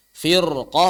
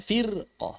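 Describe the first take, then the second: First: FIRQAH with a heavy, dark rolled r; thick r. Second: "firqah" with a thin, light r; wrongly thin r. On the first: Teacher repeats the correct reading, thick r. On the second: Teacher contrasts it with the right one, thin r. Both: Shown as a demonstration. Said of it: "bukan firqah".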